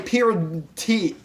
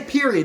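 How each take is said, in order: First: "period T" with a separate T sound on the end; added final T. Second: Said in the usual way. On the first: Shown as a demonstration. Showing how they say the slang word, "period T" with T added. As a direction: tack a distinct T onto "period T". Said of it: "they say period T". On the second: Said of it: "they don't say period".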